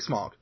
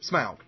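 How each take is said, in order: First: The name is said with an American pronunciation. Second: The name is said with a British pronunciation. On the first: "when you're American, you just say smog" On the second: "when you're British and you say smog, you say Smaug"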